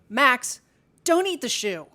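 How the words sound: It sounds somewhat firm and authoritative.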